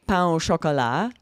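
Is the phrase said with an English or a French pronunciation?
French. It is said with a French pronunciation.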